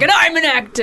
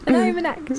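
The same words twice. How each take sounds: First: It is said in a bold, confident way. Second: It is said in a shy, humble way.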